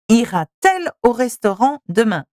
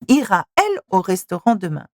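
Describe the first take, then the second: First: A t sound links the verb to the pronoun. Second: The verb runs straight into the pronoun without t. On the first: The speaker calls it right. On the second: The speaker calls it wrong.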